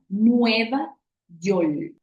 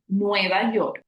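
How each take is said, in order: First: The word York ends with an L sound. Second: The word York ends with an R sound. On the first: This is the Puerto Rican pronunciation. "Un puertorriqueño diría Nueva York. Al final de esa R se convierte en una L" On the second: This is the general Spanish pronunciation. "En español es de esa manera como lo pronunciamos"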